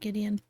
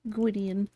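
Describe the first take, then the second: First: The name begins with a plain G sound. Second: The name begins with a GW sound. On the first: This is how the game's creator says the name. "Roberta Williams pronounced it uh" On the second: This is how the name looks when read from its spelling. "I'm just used to it looking like it's uh"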